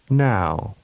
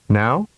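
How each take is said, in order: First: The vowel is prolonged. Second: The vowel is held briefly. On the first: "and then with a longer duration" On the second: "with a short vowel duration first"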